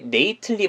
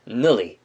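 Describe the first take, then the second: First: The ending is said in full as nately. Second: The ending is weakened and reduced to nilly. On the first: The speaker calls it wrong. "nately라고 발음을 하는 게 아니라" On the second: The speaker calls it right. "nilly라고 해가지고 편하게 발음해 주시면 되는 거예요"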